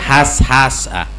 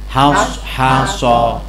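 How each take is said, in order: First: The final vowel is open and light, like a. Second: The final vowel is dark and rounded, like o. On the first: The speaker calls it wrong. "Nggak boleh dibaca has has ah" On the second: The speaker calls it right. "tapi baca mulutnya gimana? Has haso"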